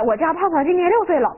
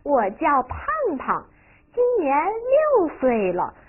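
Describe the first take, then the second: First: There is no pause after the name. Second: There is a pause after the name. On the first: The speaker calls it wrong. "不是这样的吧？" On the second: The speaker calls it right. "胖胖中间停了半拍，是吧？……换气了"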